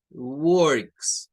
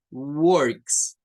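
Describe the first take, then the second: First: "Works" with an er vowel before the r; English "Works". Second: "works" drawn out with an er vowel; slow down on "works"; English "works". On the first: Teacher modelling "Works" for the class. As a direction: say "Works" clearly. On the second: Teacher introducing the word "works". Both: Shown as a demonstration. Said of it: "lleva la O con la R".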